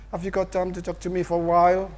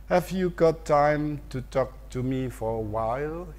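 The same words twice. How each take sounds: First: "Have you got time to talk to me for a while?" rushed, words blended, higher; fast native speech. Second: "Have you got time to talk to me for a while?" slow, each word spaced; slow careful reading. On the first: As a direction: rattle it off like a native, run together. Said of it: "mereka berbicara cepat sekali". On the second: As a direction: read it word by word like a textbook. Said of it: "yang cepat seperti ini". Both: Shown as a demonstration.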